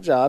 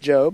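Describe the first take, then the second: First: The vowel is short, like in 'jobs'. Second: The vowel is long, like in 'robe'. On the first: It is the common word for work. The speaker calls it wrong. "That looks like Job, but it's not Job" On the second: It is the name of a person. The speaker calls it right. "it's Job"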